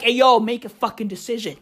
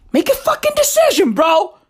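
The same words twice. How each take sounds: First: Said in the usual way. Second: High-pitched, fast demand; acted ultimatum, voice shooting way up; mock exasperated yell. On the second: Acted demand repeated, escalating.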